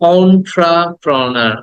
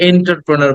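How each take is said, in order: First: The word begins with an 'on' sound. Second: The word begins with an 'en' sound. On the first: The speaker calls it right. "But শব্দটা হচ্ছে অন্ট্রাপ্রনার" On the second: The speaker calls it wrong. "আমরা এটাকে এন্টারপ্রেনার বলি"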